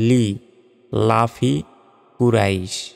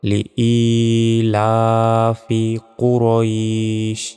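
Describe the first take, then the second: First: The vowel after 'li' is short, not drawn out. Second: The vowel after 'li' is held for a second. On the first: The speaker calls it wrong. "সম্পূর্ণ ভুল এটা" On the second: The speaker calls it right. "ই এক সেকেন্ড টান টেনে পড়তে হবে"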